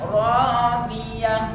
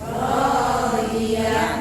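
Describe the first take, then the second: The two takes are said the same way.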